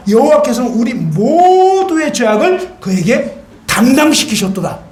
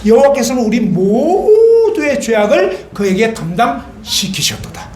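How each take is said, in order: First: Declaimed verse, raised a little; proclaimed scripture. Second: Slow, measured scripture reading; slow recitation. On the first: Preacher proclaiming scripture to the congregation. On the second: Preacher reciting Isaiah again for the congregation, slowly. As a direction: read the verse word by word, slowly. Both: Acted.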